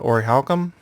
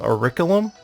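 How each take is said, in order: First: The k sound after 'ori' is dropped. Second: The k sound near the end is dropped. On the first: "which doesn't pronounce the first C" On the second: "that doesn't pronounce the second C"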